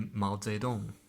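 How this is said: It is said with a Chinese accent. The speaker calls it right. "In Chinese, that would be"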